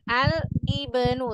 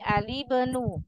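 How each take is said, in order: First: A glottal break separates 'al' from 'ibnu'. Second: The 'l' runs straight into 'ibnu'. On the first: The speaker calls it wrong. "Jangan al-ibenu" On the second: The speaker calls it right. "Tapi alibenu"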